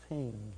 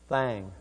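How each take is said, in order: First: The vowel is close, like 'ing'. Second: The vowel is open, like 'ang'. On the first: The speaker calls it right. "we pronounce it thing" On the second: The speaker calls it wrong. "she said, thang"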